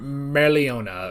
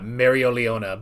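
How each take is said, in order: First: The name is said with one syllable dropped. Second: The name is said with an extra syllable. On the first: "I feel like it should be like" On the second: "I'm putting in one too many syllables when I say that Mereoleona"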